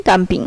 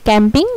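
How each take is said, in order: First: কাম্পিং said with an open "a" vowel; German-style camping. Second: ক্যাম্পিং said with the English "kya" vowel; English-style camping. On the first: Teacher contrasts English and German camping, German take. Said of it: "জার্মানেও সেমভাবেই হবে". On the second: Teacher contrasts English and German camping, English take. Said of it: "ইংলিশে সি এর উচ্চারণ যেমন". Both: Shown as a demonstration.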